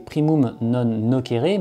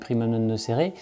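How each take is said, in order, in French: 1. Ça se prononce à la manière du latin classique. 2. Ça se prononce à la manière habituelle du français. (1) "comme on devrait bien le prononcer" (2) "tout le monde dit"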